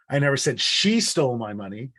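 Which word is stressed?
she. The word 'she' carries the main stress. Someone else took it. "It wasn't her, it was them"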